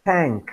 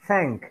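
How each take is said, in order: No difference in how they are said.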